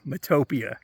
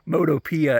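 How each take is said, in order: First: The name rhymes with utopia. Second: The name does not rhyme with utopia. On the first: The speaker calls it right. "I guess like Utopia" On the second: The speaker calls it wrong. "as I call it"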